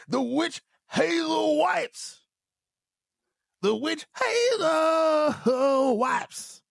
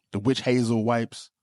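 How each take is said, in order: First: High, very slow hammed-up crying shout; mock wailing. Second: Said in the usual way. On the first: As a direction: wail the product name like a mock lament. Comic wail over the wipes.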